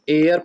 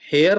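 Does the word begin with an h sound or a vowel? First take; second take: vowel; h sound. First: The word starts directly with a vowel. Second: The word starts with an h sound. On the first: The speaker calls it right. "इसको हम एयर पढ़ते हैं" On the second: The speaker calls it wrong. "लेकिन हेयर नहीं है ये"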